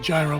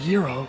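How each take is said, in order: First: It begins with a soft G sound. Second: It is said closer to the Greek pronunciation. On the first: This is the accepted English pronunciation for the food. "soft G at the beginning, like gyro" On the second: This is how it is pronounced in Greece. "it's typically pronounced closer to gyro"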